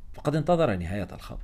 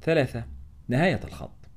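First: Said in the usual way. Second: Announced heading, higher and set apart; title read with a stop on نهاية, falling on الخط; chapter title. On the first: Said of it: "narration reuses title". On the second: A narrator's reading. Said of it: "chapter heading".

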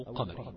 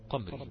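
First: "قمري" as three syllables, qa-ma-ri; qamari, open syllables. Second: "قمري" as two syllables, qam-ri, no vowel on the م; qamri, closed syllable. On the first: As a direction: say "قمري" with a short a after the م: qa-ma-ri. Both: Shown as a demonstration. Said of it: "أو قمري".

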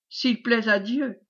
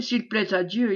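First: Slow, lightly mocking repeat; drawn-out, understated jeer; mocking echo. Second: Said in the usual way. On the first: A narrator's reading. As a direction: echo it slowly, with a touch of mockery. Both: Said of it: "répéta Géfès d'un air goguenard".

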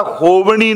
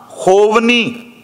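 First: ਹੋਵਣੀ with a retroflex ṇ, as hovaṇī; showing the mistaken ਹੋਵਣੀ, ṇ curled back; wrong reading of ਹੋਵਣੀ. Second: ਹੋਵਨੀ with a dental n, as hovnī, slow; correct reading of ਹੋਵਨੀ. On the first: Preacher warns the congregation against misreading ਹੋਵਣੀ with retroflex ṇ. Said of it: "ਹੋਵਣੀ ਨਹੀਂ ਪੜ੍ਹਨਾ". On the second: Preacher recites scripture, ਹੋਵਨੀ read slowly with dental n. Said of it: "ਨੰਨਾ ਹੀ ਪੜ੍ਹਨਾ ਹੈ". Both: Shown as a demonstration.

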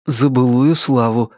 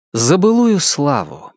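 First: Restrained answering toast; echoed toast. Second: Slow, weighty toast; solemn toast. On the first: Guests echo the angel's toast, subdued. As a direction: echo it back at ordinary pitch. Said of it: "эхом откликнулись дверь и Ричард". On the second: Angel raises his glass to past glory, solemnly. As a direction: propose the toast slowly, slightly raised pitch. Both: A narrator's reading.

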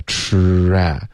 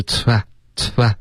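First: "tra" as one long, linked tr sound; slow, continuous r gliding through "tra"; connected blend. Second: "tra，tra" short, like two separate parts; abrupt "tra，tra" with a weak r; choppy mispronunciation. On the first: Shown as a demonstration. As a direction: draw out "tra" smoothly in one piece. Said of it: "要连贯的tra". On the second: Retold or imitated. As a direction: imitate the learner's broken "tra，tra". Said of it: "你现在说的是tra，tra".

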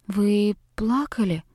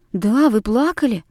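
First: Soft, slow, careful question; gently and carefully. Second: Pressing, insisting she did cry; insistent. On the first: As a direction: ask it tenderly, as if afraid to hurt. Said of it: "Как нельзя более нежно и осторожно". (девочка нежно спрашивает плачущую учительницу: тихо и осторожно) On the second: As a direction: push the point, not gentle. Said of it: "приставали мы". (девочки настойчиво пристают к учительнице, с нажимом) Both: Acted.

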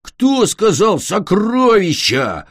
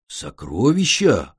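First: Slow, drawn-out monster growl; a villain sniffing out treasure. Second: Said in the usual way. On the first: Acted. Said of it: "прорычал Глин".

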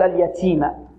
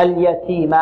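First: اليتيم with so much breath that ت slides toward "s"; hissy "ts" for the ت in اليتيم; over-breathed ta. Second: اليتيم with a light puff on ت, no "s"; اليتيم, lightly aspirated "t"; clean breathed ta. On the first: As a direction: overdo the puff on ت in اليتيم into "ts". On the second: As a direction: keep the ت in اليتيم a true "t" with slight breath. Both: Shown as a demonstration. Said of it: "راحت السين خطأ".

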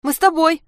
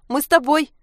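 First: High, loud squeal. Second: High, loud squeal repeated. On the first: Anka squeals that they want to go with Sasha. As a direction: beg to come along, squealing. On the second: Anka squeals once more to go with Sasha. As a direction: squeal it again, pleading. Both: Acted. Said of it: "заверещала Анька".

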